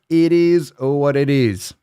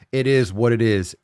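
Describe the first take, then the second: First: Slow and louder, slightly higher, savoring each word; drawn-out resigned shrug. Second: Said in the usual way. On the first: Shown as a demonstration. Repeating the saying to the podcast listeners, drawn out slowly. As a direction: stretch it out like a mock-profound motto. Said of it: "repeats the saying". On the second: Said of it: "repeats it drawn out".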